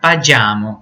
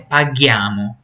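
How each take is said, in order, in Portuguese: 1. O g é suave, como o som de j. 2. O g é forte, como em go. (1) "Se não colocar o H, vai ficar paghiamo" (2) "porque o pagare tem som de G ... não G de J"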